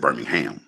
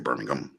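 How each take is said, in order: First: It is said with an American pronunciation. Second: It is said with an English pronunciation. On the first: This is how the US city's locals say it. "We say Birmingham" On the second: This is how people in England say it. "They say Birmingham, right?"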